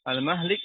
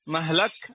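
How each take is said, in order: First: The vowel after the h is i. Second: The vowel after the h is a. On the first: "ikut wazan maf'il" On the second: "yajuzu fiha al-fathu"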